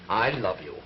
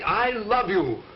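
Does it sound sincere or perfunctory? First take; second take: perfunctory; sincere. First: It is said flatly, without real feeling. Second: It is said warmly, with real feeling.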